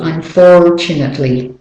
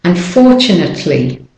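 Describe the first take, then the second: First: American "Unfortunately" with the R sounded before T; American accent. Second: British-Australian "Unfortunately", R left silent; British and Australian accent. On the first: Teacher shows learners the R, American-accented "Unfortunately". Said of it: "need that to say the R". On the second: Teacher contrasts accents for learners, non-rhotic British-Australian "Unfortunately". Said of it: "but in the British and Australian, no". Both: Shown as a demonstration.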